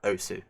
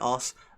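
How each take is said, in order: First: The final u sound is clearly pronounced. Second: The final u sound is left silent.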